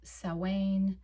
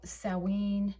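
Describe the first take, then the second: First: The word is said with its Gaelic pronunciation. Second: The word is said with its Gaelic pronunciation.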